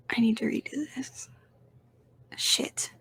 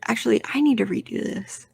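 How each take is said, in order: First: Soft whispered self-correction. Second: Said in the usual way. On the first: Real, not acted. Catching his own ranking mistake, whispered to himself. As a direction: mutter it under the breath.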